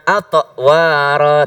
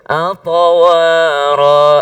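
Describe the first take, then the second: First: The word stops briefly at the middle consonant. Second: The word flows smoothly without stopping midway. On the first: The speaker calls it wrong. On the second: The speaker calls it right. "tapi ngalir"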